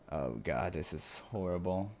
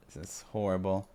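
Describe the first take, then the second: First: Softly appalled "horrible"; quiet dismay. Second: Said in the usual way. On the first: Real, not acted. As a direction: let "horrible" sink with dread. Reader repeats the line.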